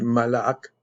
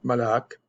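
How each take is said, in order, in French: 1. Le mot finit par le son k. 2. Le mot finit par le son k.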